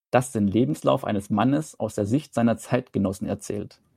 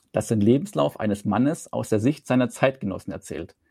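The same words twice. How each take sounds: Both takes have the same delivery.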